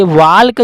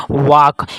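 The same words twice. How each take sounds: First: "वाल्क" with an audible L before the K; walk with L sounded. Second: "वाक" with a long vowel straight into K; walk with silent L. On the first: Teacher showing what is written, L sounded in "वाल्क". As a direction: say "वाल्क" as spelt, L and all. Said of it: "जो लिखा है". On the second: Teacher showing students how it is read, L silent in "वाक". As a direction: drop the L, saying "वाक". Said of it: "silent हो जाता है". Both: Shown as a demonstration.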